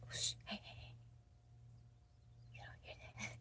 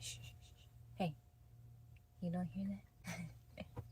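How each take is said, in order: First: Breathy hushed whisper, much softer; soft secretive whisper on request. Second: Slow, quiet half-whisper; slower, softer hushing tease; hushed and slow. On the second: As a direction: draw it out softly, hushed. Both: Pretend. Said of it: "tell me your voices".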